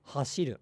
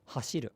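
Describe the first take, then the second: No difference in how they are said.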